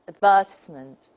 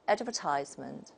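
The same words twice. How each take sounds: First: It is said in a British accent. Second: It is said in an American accent. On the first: "the British model" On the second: "according to the American model"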